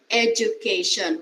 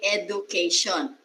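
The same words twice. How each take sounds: First: The middle consonant is a 'j' sound. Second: The middle consonant is a plain 'd' sound. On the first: The speaker calls it right. "It should be J" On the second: The speaker calls it wrong. "We do not say education because it's letter D"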